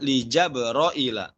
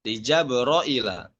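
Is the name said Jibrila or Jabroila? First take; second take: Jabroila; Jabroila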